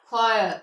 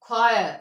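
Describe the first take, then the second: The two takes are said the same way.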